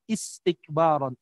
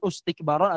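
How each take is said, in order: First: The word begins with an i vowel. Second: The word begins with an u vowel. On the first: The speaker calls it right. "tapi istikbaron. Udah pasti is" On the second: The speaker calls it wrong.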